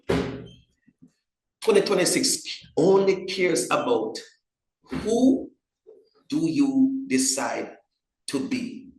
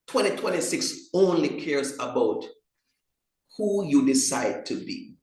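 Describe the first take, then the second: First: It is spoken at a slower, deliberate pace. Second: It is spoken at a normal, quicker pace.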